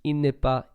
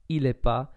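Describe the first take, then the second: First: The 'ne' sound is pronounced in full. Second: The 'ne' is dropped and the words are shortened.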